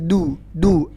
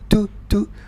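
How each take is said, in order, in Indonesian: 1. Bunyi d dilepas tanpa hembusan napas. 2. Bunyi d dilepas dengan hembusan napas. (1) "Yang benar du du" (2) "Nah, ini nggak boleh. Nggak boleh ada angin yang keluar"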